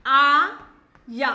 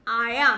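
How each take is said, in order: First: आया drawn out very slowly; stretched syllables. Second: Said in the usual way. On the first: Shown as a demonstration. Teacher stretching a word for children. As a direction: hold the आ long in आया. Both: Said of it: "मैंने बा को तेज की बोला".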